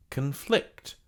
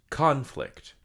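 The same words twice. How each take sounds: First: ConFLICT, stress on second syllable, slow; verb stress. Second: CONflict, stress on first syllable, slow; noun stress. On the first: Teacher showing the verb: con-FLICT, stressed second. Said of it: "For the verb, it's conflict". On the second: Teacher showing the noun: CON-flict, stressed first. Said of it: "For the noun, it's conflict". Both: Shown as a demonstration.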